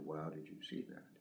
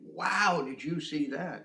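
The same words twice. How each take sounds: First: The pitch stays flat and level throughout. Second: The pitch moves up and down expressively. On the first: The speaker calls it wrong. "As opposed to" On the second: The speaker calls it right. "I'm changing the pitch. This is inflection"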